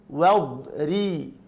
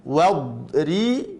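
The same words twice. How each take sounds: The two takes are said the same way.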